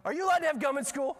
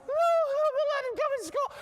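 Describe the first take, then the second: First: High, loud, fast interrogation; imitated scolding teacher. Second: Very high, loud mock wailing child; crying little girl. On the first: Teacher questioning girl about gum, loud rapid mock scolding. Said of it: "the teacher's like". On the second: Six-year-old answering teacher about gum, exaggerated high crying. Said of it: "This poor little girl's crying".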